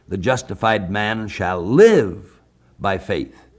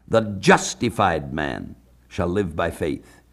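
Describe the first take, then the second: First: The stress is on the word live. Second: The stress is on the word man.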